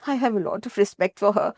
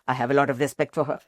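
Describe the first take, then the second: First: It is said in a polite, gentle tone. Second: It is said in a blunt, impolite tone.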